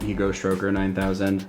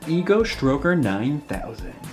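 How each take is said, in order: First: It is said in a plain, neutral tone. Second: It is said in a suggestive, sexual tone.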